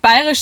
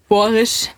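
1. Das Wort wird in Standarddeutsch gesprochen. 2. Das Wort wird im bayerischen Dialekt gesprochen. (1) "Nicht bayerisch" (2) "sondern auf Borisch"

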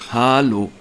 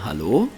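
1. Ein lang gezogener erster Vokal, kurzer letzter Vokal, cool. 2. Der Gruß wird warm und charmant gesagt. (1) "also mit 3 A vorne und hinten so einem kurzen O" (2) "Man könnte es charmant sagen"

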